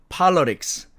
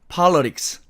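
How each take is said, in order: The two takes are said the same way.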